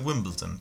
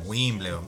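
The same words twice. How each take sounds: First: It is said with an English accent. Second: It is said with a Spanish accent.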